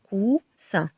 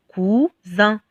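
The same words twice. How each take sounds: First: "coussin" with a hissed S, "cou-ssin"; S sound. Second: "cousin" with a buzzing Z, "cou-zin"; Z sound. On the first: Teacher reading the word with double S, "coussin" with a clear S sound. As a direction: say "coussin" in two syllables with a voiceless S. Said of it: "si on a deux S". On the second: Teacher showing how one S would read, "cousin" with a Z sound. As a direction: say "cousin" in two syllables with a voiced Z. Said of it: "Supposons qu'on a un seul S". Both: Shown as a demonstration.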